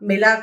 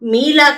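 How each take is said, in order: First: The first vowel is short. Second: The first vowel is long. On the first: The speaker calls it right. "किताब मिला कहा" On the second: The speaker calls it wrong. "मीला कहेंगे तो गलत होगा"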